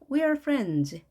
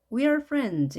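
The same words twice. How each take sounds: No difference in how they are said.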